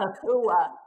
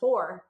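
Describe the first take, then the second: First: The final r is dropped, ending in an 'ah'. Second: The final r is clearly pronounced. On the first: "It's just pronounced different"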